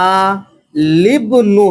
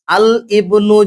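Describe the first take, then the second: First: আলিবনু joined as one word, the alif of ইবনু dropped; slow, joined আলিবনু with stress on লি; correct reading. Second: আল ইবনু with the alif of ইবনু said separately after আল; wrong reading. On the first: Teacher showing students the correct joined reading, slowly. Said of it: "এটা উচ্চারণটা হবে". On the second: Teacher showing students the wrong split reading. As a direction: say আল, then ইবনু as two words, as the mistake. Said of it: "তাহলে ভুল হয়ে যাবে". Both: Shown as a demonstration.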